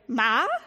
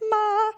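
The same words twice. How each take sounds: First: The pitch rises from mid to high. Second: The pitch stays high and level throughout. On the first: It means rough. "like you're looking for your mother" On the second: It means mother. "with a high pitch"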